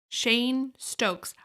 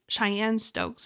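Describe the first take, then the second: First: The first word sounds like 'chain'. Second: The first word sounds like 'Cheyenne'. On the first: The speaker calls it right. "I had to Google how to pronounce that" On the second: The speaker calls it wrong. "I've always been calling it"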